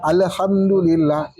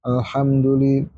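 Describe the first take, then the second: First: ALHAMDULILLAH as a-le-hamdulillah; "Alhamdulillah" with a rebound after the first L; bouncing L. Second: ALHAMDULILLAH lower, L closed without bounce; "Alhamdulillah" with a clean al; steady AL. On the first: Teacher repeating the common mistake, bounced L. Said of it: "orang Indonesia mantul". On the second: Teacher giving students the clean reading, lower, unbounced L. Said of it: "Ini al". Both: Shown as a demonstration.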